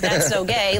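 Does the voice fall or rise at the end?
fall. The pitch does not rise at the end. It is meant as an insult. "It's not going up"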